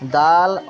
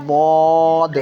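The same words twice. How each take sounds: First: دال said thin and light at the teeth; a fine, light دال; thin light daal. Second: داد said heavy and full from the tongue edge; a weighty داد; heavy full zwad. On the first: Tutor contrasting light دال with heavy داد. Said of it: "دال کو باریک پڑھنا ہے". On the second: Tutor contrasting heavy داد with light دال. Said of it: "داد کو پر کر کے پڑھنا ہے". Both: Shown as a demonstration.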